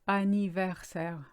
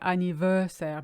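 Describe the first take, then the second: First: It is said with French sounds. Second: It is said like the English word. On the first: The speaker calls it right. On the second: The speaker calls it wrong.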